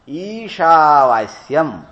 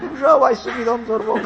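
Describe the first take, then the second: First: It is said with a standard accent. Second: It is said with a Bengali-style accent. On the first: The speaker calls it right. "तो इसीलिए ईशावास्यम ना" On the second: The speaker calls it wrong. "ऐसा बोल बोल करके और पेट पकड़ पकड़ करके हंसे"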